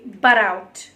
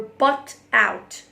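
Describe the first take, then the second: First: The two words are said fast and linked. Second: The two words are said slowly and separately.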